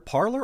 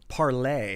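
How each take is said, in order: First: It sounds like the English word parlor. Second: It sounds like the French word for talk.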